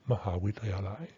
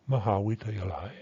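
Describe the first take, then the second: No difference in how they are said.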